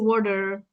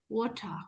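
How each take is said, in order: First: It is said in an American accent. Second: It is said in a British accent. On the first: "American people they say water" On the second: "British people would say water"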